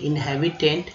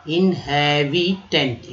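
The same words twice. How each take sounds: First: Said in the usual way. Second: Inhabitant drawn out very slowly; slow demo. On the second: Shown as a demonstration. Teacher sounding out inhabitant slowly for the class. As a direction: stretch inhabitant syllable by syllable. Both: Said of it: "in heavy".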